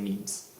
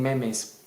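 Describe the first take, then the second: First: The word is said with English vowels. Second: The word is said with Spanish vowels. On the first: "when you speak English, I would recommend saying memes" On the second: "in Spanish you already say genes, so saying memes kind of makes sense"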